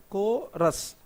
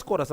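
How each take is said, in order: First: "Chorus" broken in two, "ko... rus"; split into syllables. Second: Said in the usual way. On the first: Shown as a demonstration. Teacher repeats the two-syllable word for students, segmented "Cho-rus". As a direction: say "Chorus" one syllable at a time. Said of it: "there are two syllable words". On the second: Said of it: "you know what is chorus".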